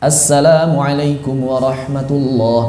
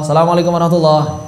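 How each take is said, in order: First: The doubled consonants are held long. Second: The doubled consonants are cut short. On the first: The speaker calls it right. "Minimal yang pertama" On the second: The speaker calls it wrong. "Gimana ini tasdidnya nggak kebaca?"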